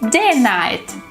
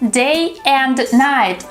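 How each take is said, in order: First: The word 'and' is reduced to 'n'. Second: The word 'and' is said in full. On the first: "And becomes in" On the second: "Instead of saying"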